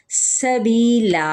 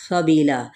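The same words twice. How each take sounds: First: سبیلا very slow, its س hissed sharp like a whistle; whistled seen. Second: Said in the usual way. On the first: Shown as a demonstration. Teacher modelling the whistling seen for students, slow recitation. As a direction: stretch سبیلا and let the س whistle. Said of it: "سین پہ دیکھیں سیٹی کیسے". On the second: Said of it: "میں نے سبیلا نہیں پڑھا".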